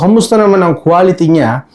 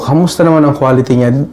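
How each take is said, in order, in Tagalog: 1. Mas tahimik na ang ugong ng fan at aircon sa background. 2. Malinaw na naririnig ang ugong ng fan at aircon sa background. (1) "kapag naka-noise cancellation effect na" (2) "wala pa po itong noise cancellation"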